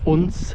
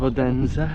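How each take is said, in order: First: The name is said the local Danish way. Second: The name is said the foreign, non-local way.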